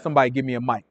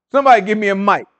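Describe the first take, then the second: First: Said in the usual way. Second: A hint louder, calling out to the room; raising the voice to demand a mic. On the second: Real, not acted. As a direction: ask again, louder, for the mic.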